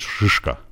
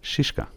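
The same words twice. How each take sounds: First: The first vowel is a thick, hard i. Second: The first vowel is a plain, light i. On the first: "اگه غلیظ بود میشد شیشکا" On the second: "ایش غلیظ نیست، ای ساده است"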